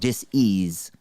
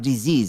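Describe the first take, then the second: First: The word is split into dis and ease. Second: The word is said smoothly as one unit. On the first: It means a lack of ease in the body. The speaker calls it right. "it's called dis-ease" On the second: It is the ordinary word for an illness. The speaker calls it wrong. "Not disease"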